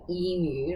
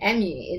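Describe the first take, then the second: First: The first vowel is the usual 'ee' sound. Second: The first vowel is a short 'eh' sound. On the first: It is the usual Australian way. "which most Australians say"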